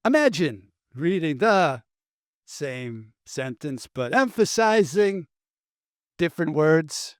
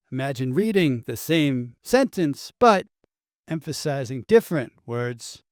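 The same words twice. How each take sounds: First: Halting celebrity impression, odd pauses and sudden lifts; oddly paced, lurching mimicry with a hushed middle; Christopher Walken. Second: Same sentence with new words leaned on; shifted word emphasis. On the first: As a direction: break the sentence in strange places, dragging some words and jumping on others. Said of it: "This is the Christopher Walken read". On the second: Shown as a demonstration. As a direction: stress on "reading" and "different". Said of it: "reading the same sentence and emphasizing different words".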